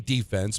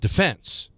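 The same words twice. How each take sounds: First: The stress is on the first syllable. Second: The stress is on the second syllable. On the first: This is the sports usage from fan chants. The speaker calls it wrong. "It became defense because at Yankee Stadium" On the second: This is the standard, military usage. The speaker calls it right. "the proper pronunciation is defense"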